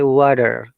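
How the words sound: It is said with an American pronunciation. "the American will say water"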